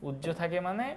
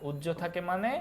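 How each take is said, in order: No difference in how they are said.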